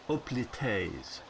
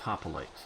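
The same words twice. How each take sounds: First: The word begins without any H sound. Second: The word begins with an audible H sound. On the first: "sort of dropping the H" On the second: "I always thought it was hoplites"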